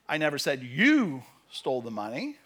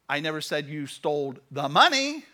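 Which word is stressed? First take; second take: you; money. First: The word "you" carries the main stress. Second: The word "money" carries the main stress. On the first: Someone else stole it. "Somebody else stole it" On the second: Other things were stolen instead. "You stole everything else"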